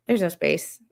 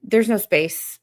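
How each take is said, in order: First: Laughing. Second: Said in the usual way. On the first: Real, not acted.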